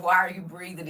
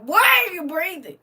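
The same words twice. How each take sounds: First: Said in the usual way. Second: High, loud mock outrage; hammed-up exasperated yell; irritated outburst. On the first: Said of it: "You said". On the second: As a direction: demand it loudly, pitched up, utterly fed up. Acting out irritation at people.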